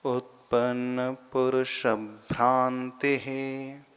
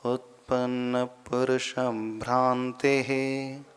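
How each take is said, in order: First: उत्पन्न पुरुष भ्रांति है very slow, syllable by syllable, stress before भ्रा; slow careful recitation. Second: उत्पन्न पुरुष भ्रांति है slow, ending on a clear ते; slow careful recitation. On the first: Sanskrit teacher slowly recites the verse line for students. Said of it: "थोड़ा सा extra भ का उच्चारण सा सुनाई देगा". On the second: Teacher repeats the verse line slowly for students. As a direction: recite slowly with a crisp ते at the end. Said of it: "ते ही ऐसा उच्चारण करना". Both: Shown as a demonstration.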